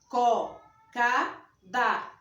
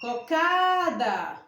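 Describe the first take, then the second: First: Each syllable is said separately with pauses. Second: It is said smoothly as one word, like calling. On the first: The speaker calls it wrong. "pronuncia assim, ó, ... porque você pronunciou separado ... A pronúncia está errada" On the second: The speaker calls it right. "Vou pronunciar como se eu estivesse chamando"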